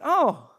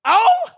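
First: Small, restrained "Oh" of a let-down reaction; underwhelmed. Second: High, loud, disbelieving "Oh?"; incredulous echo. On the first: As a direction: imitate a daughter's lukewarm response. Daughter's let-down reaction to gift. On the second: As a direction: throw "Oh?" back in mock outrage. Dad's incredulous echo of her reaction. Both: Retold or imitated.

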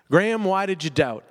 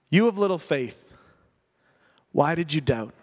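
First: Gentle rebuke to self. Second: Compassionate Jesus. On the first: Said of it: "that's my story again". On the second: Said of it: "filled with empathy, filled with compassion". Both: Retold or imitated.

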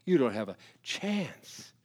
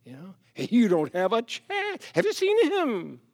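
First: Said in the usual way. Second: Mocking, much higher voice of a doubter; scornful doubter. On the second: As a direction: sneer it out, pitched up high. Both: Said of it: "you might say".

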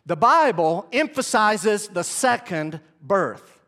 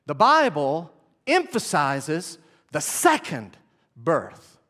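First: Slow dictation. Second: Slow dictation, again. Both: Shown as a demonstration. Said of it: "Write this down".

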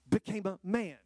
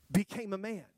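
Both takes have the same delivery.

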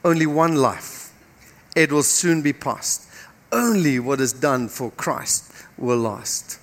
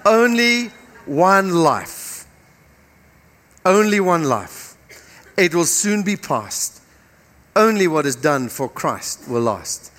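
First: Lower, soft, Only stressed; quieter earnest repeat. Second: ONLY stressed, very slow and deliberate; slow emphatic repeat. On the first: Preacher pleading with the congregation to remember, quiet and earnest. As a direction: say it softly and earnestly to them. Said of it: "listen to me this morning". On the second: Preacher repeating the poem so they get it, slow and emphatic. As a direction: lean on Only, let each line fall. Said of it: "listen to it again". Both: Shown as a demonstration.

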